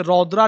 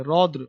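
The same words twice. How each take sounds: First: "रौद्रा" with a long final aa; wrong reading. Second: "रौद्र" with short, light ending; low "रौद्र", no long aa after dr; correct reading. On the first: Teacher warning against a misreading, "रौद्रा" ending in long aa. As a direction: stretch the end of "रौद्रा" into a full aa. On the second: Teacher giving students the right name, "रौद्र" without final aa. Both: Shown as a demonstration. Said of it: "इसे रौद्रा नहीं पढ़ेंगे".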